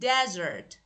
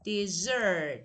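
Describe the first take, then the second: First: The stress is on the first syllable. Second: The stress is on the second syllable. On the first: It is the noun meaning a dry place. "Desert as a noun is a dry place" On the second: It is the verb meaning to abandon. "as a verb, it should be pronounced like desert, like this"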